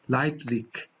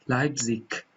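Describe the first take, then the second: No difference in how they are said.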